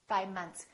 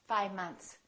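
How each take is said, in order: The two takes are said the same way.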